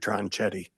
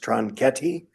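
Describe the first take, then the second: First: The name has an American pronunciation. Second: The name has an Italian pronunciation. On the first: This is the changed family name. "Americanized it to" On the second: This is the original family name. "In Italy, it's pronounced"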